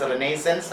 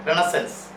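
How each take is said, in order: First: "Renaissance" as reh-NAY-sence, full middle vowel; pronunciation with full vowel. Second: "Renaissance" as REN-uh-sunce, weak middle vowel; "Renaissance" said ren-uh-sənce; pronunciation with weak vowel. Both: Shown as a demonstration. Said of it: "it is pronounced as Renaissance and Renaissance".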